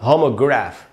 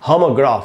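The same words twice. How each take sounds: First: It is said with an American accent, 'e'-like vowel. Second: It is said with a British accent, open 'aa' vowel. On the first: "अगर ये American होता तो ये होता होमोग्राफ" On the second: "ये जो pronunciation है ये ब्रिटिश प्रोनाउंसिएशन है"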